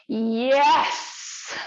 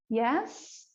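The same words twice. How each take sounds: First: The yes sounds lively and enthusiastic. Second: The yes sounds unsure and hesitant. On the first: "when we move into enthusiasm" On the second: "a hesitant yes"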